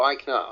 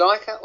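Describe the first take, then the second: First: Eichner, with an n before the ending; EYEK-ner, sounding the N in Eichner; pronounced with N. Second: Eicher, with no n before the ending; EYE-ker, no N sound in Eicher; pronounced without N. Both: Shown as a demonstration. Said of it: "Eichner with an N".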